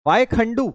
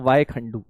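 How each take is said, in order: First: "Y Khandu" read out high, lifted on "Y"; reading the chat. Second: Said in the usual way. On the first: Retold or imitated. Teacher reading a student's comment, "Y Khandu" pitched high.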